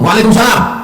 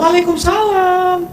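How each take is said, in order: First: It is said curtly and sharply. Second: It is said softly and flirtatiously.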